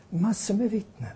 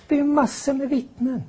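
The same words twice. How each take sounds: First: Softer repeat, stress on med; quieter echo. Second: Much higher, stress on det; emphatic high claim. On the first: (tystare eko med betoning på med) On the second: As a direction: proclaim it high and urgent. (hög, eftertrycklig betoning på det) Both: Shown as a demonstration.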